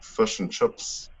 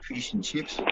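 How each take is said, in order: First: It is said in a New Zealand accent. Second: It is said in an Australian accent.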